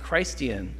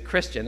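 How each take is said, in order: First: The first part sounds fully like 'Christ'. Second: The first part is reduced to 'Kris'.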